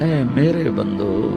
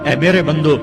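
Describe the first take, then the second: First: It is said in a warm, loving tone. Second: It is said in a plain, unaffectionate tone. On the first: The speaker calls it right. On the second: The speaker calls it wrong.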